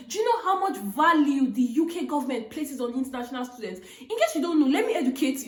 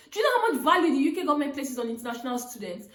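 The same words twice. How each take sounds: First: Laughing through it. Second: Fast, laughing retelling. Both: Retold or imitated. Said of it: "It was just me all laughing".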